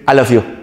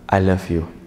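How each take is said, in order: First: It sounds forced out. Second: It sounds serious and heartfelt.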